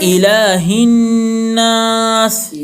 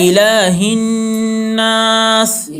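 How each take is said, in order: The two takes are said the same way.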